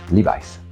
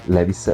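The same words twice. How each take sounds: First: The name is pronounced the original brand way. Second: The name is pronounced the usual Italian way. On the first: The speaker calls it right. "la pronuncia corretta è" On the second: The speaker calls it wrong. "In italiano siamo abituati a chiamarlo"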